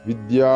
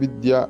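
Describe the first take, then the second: First: The word is said with a lengthened sound. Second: The word is said short without lengthening. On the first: The speaker calls it right. "വിദ്യ എന്ന് നീട്ടേണ്ടതാണ്" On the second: The speaker calls it wrong. "വെറും വിദ്യ എന്ന് ഉച്ചരിച്ചത് കൊണ്ടായില്ല"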